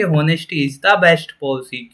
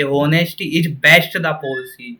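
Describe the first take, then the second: First: "Honesty is the best policy" read very slowly with "the" stressed; correct order, read slowly. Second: "Honesty is best the policy" read very slowly as the wrong version; wrong order, read slowly. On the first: Teacher showing the correct sentence slowly. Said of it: "Always यही लिखा मिलेगा कि". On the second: Teacher showing the wrong sentence slowly. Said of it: "कभी भी ये लिखा हुआ नहीं मिलेगा कि". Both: Shown as a demonstration.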